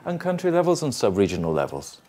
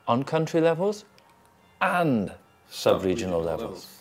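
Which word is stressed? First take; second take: none; and. First: No single word carries strong stress. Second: The word 'and' carries strong stress. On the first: The two levels are presented together as one pair. "Or I could do it like the two things together" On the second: It adds emphasis: not only country levels but sub-regional levels too. "And where did I put it? ... Not just country levels, we're also looking more"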